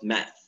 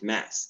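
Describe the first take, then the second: First: The word ends without an s sound. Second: The word ends with an s sound. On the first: The speaker calls it wrong. "not math" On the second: The speaker calls it right. "We pronounce it math, because here we have S"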